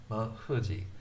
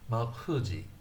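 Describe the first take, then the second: First: The f is made between two tight lips. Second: The same.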